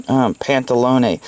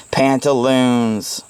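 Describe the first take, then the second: First: Pantalone, drawn out slowly; saying pantalone. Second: Pantaloons said very slowly, relishing it; savoring pantaloons. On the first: Reading a favourite word to viewers, slow pantalone. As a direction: linger on pantalone. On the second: Showing viewers a word he loves, slow relishing Pantaloons. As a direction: stretch out Pantaloons lovingly. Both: Shown as a demonstration. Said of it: "I love saying pantaloons".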